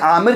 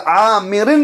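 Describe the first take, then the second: First: The name ends on a bare 'r' sound. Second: The name ends with an added '-in' sound. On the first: The speaker calls it wrong. "अन उक़बत बिन आमिर कैसे हो जाएगा?" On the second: The speaker calls it right. "आमिरिन रज़ी अल्लाह ताला होगा"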